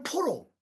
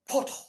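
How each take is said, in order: First: The t is softened into a flap. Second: The t is pronounced crisply and clearly. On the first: "미국에서는 포로" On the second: "영국에서는 포터"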